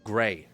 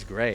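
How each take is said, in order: First: It is said in an imitated Chicago accent. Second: It is said smoothly in a relaxed plain accent.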